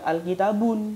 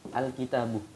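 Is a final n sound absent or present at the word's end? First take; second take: Present; Absent. First: The word ends with an added final n sound. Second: The word ends in a plain vowel without n. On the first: The speaker calls it wrong. "tidak boleh dibaca al-kitabun. Tidak boleh" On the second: The speaker calls it right. "Tidak ada alnya, pasti bertanwin. Tapi kalau ada alnya, tidak boleh ada tanwin"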